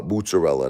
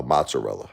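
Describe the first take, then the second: First: Mozzarella with an OO first vowel, "moots-uh-rella"; Brooklyn pronunciation. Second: Mozzarella with an open AH, "mahts-uh-rella"; non-Brooklyn pronunciation. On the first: Shown as a demonstration. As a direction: say mozzarella as "MOOT-suh-rella", Brooklyn style. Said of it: "That's how we say it in Brooklyn". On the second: Retold or imitated. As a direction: say mozzarella as "MAHT-suh-rella". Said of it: "She says, uh".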